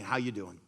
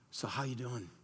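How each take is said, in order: First: It is asked in a light, casual way. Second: It is asked in an earnest, caring way.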